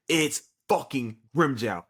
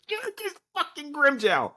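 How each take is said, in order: First: Said in the usual way. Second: High, slow, stretched fan squeal; hyped disbelief. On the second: Real, not acted. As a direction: savor the reveal, voice way up. Hyped reveal.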